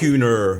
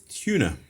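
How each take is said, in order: First: The word ends with a clear r sound. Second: The word ends without an r sound.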